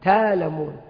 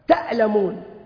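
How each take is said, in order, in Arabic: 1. يتحوّل الهمز إلى ألف مدّ طويلة. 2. يُنطق الهمز بوضوح. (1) "إبدال الهمزة حرف مد من جنس ما قبلها" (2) "همزة مفتوحة ساكنة"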